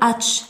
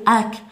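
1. تنتهي الكلمة بصوت ch. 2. تنتهي الكلمة بصوت k. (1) "لا نقول atch" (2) "نقول ack"

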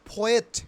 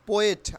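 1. প্রথম p-তে জোরালো বাতাসের ফুঁ আছে। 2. প্রথম p সাধারণ, এতে বাতাসের ফুঁ নেই। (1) "তাহলে পোয়েট, ফোয়েট" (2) "নট পোয়েট"

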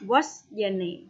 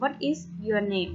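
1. พูดเร็วๆ โดยใช้คำย่อ "what's" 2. พูดให้ชัดเจน โดยออกเสียงทุกคำเต็มๆ (1) "ถ้าพูดเร็วๆก็จะเป็น" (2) "ถ้าพูดให้ชัดเจนก็จะเป็น"

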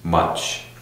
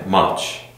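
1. 이 단어는 자음 소리로 끝납니다. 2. 이 단어는 자음 소리로 끝납니다.

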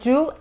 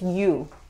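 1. Empieza con un sonido "y" fuerte, parecido al español. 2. Empieza con un sonido "y" suave, deslizante. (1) "No es you" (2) "es como una ella, pero no se juntan los dientes"

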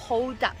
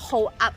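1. สองคำนี้พูดต่อกัน 2. สองคำนี้พูดแยกกัน

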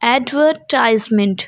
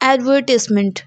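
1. ज़ोर तीसरे अक्षर पर है। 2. ज़ोर दूसरे अक्षर पर है। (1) "the American pronunciation is advertisement. The stress is on ties" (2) "The British pronunciation is advertisement. The stress is on were"

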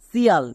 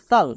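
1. শেষের অংশটি 'see-yal' হিসেবে বলা হয়। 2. শেষের অংশটি 'shal' হিসেবে বলা হয়। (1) "কিন্তু এরকম উচ্চারণ করব না" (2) "এই দুটোরই উচ্চারণ হয় সাল"

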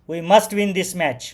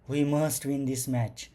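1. ही ओळ रागाच्या पद्धतीने म्हटली आहे. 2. ही ओळ घाबरलेल्या पद्धतीने म्हटली आहे. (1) "अँग्री रागाने" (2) "अफ्रेड होऊन म्हणजे घाबरून"

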